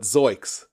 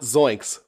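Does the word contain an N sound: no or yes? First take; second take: no; yes. First: The word is said without an N sound. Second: The word is said with an N sound. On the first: It is the altered form the character used. "There's no N there" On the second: It is the familiar catchphrase form. "not Zoinks"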